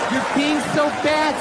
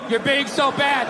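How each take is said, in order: First: It is said in a playful, flirty tone. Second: It is read out in a flat, dull tone.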